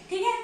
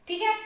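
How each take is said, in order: No difference in how they are said.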